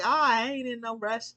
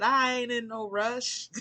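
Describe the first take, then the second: First: Said in the usual way. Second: Slow Southern country drawl, a bit louder and higher; Southern country drawl, unhurried and easygoing. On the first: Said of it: "And it's like". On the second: Retold or imitated. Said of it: "those country people".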